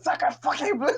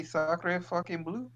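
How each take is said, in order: First: High-pitched mock French outburst; hammed-up, squealed French swearing; imitated scream. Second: Slow, softer French curse, pitched up; mild stab at tough French swearing; trying to sound hard. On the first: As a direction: mimic a friend screaming a French curse. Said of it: "just screamed". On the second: Shown as a demonstration. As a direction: draw out the French swear as a questioning suggestion. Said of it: "You can't sound hard if you say".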